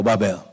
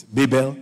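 First: "Babel" said as BAH-bel; alternative pronunciation. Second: "Babel" said as BAY-bel; alternative pronunciation. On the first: Preacher teasing about schooling, "Babel" as BAH-bel. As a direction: open "Babel" with an AH sound. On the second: Preacher teasing about schooling, "Babel" as BAY-bel. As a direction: open "Babel" with a long AY sound. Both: Shown as a demonstration. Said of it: "I don't know which school you went to".

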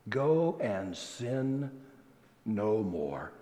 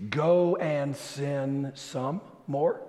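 First: Slow, soft "no more", dropping low; solemn correction. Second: Slow "Go and sin some more", drawn out; deliberate misquote. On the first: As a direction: give "no more" quietly with a pause before it. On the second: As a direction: stretch "some more" as a test for listeners. Deliberate misquote, then corrects it. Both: Shown as a demonstration.

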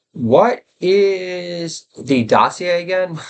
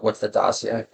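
First: Higher, very slow, puzzled host voice; slow mock-confused bro asking; Joe Rogan impression. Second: Said in the usual way. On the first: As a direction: drag out the question as if baffled. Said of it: "Funniest thing Joe Rogan's ever done on his podcast". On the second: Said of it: "Funniest thing Joe Rogan's ever done".

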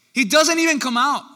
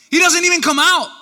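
First: DOESN'T raised high, the rest falling away; emphatic repeat. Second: Loud, high exclamation; incredulous outburst. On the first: Preacher driving the point home, emphatic stress on DOESN'T. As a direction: lean on DOESN'T with high pitch, less force. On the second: Preacher stunned Elijah stays inside, loud high outburst. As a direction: burst out with it, high and loud all through. Preacher repeats point in exasperated amazement. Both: Real, not acted.

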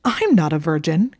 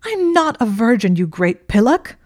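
First: "I'm not a virgin" snapped back louder, pitch level; snapped retort. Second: "I'm not a virgin" yelled high and much louder; exasperated shout. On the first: Draco insisting to Hermione, snapped indignant retort. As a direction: bite the words back at her. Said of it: "he snapped back". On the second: Hermione correcting Draco, exasperated yell. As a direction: yell it right in his face. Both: Acted.

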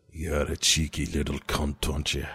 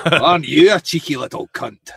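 First: Low, menacing Scottish growl; Scottish accent. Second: A hammed-up Scottish echo, a bit louder; mock the Scotsman back; Scottish accent. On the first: Retold or imitated. Scottish accent for a podcast co-host. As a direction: play the gruff Scotsman. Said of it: "my best Scottish accent ever". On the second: Host parrots the Scottish line in a Scottish accent. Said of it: "your best Scottish impression ever".

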